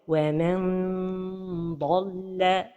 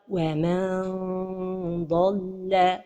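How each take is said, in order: First: The n is fully articulated with tongue contact. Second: The n becomes a stretched, vowel-like nasal sound. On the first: "La première erreur est de toucher le palais avec le bout de la langue" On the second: "C'est comme si on prononçait un med"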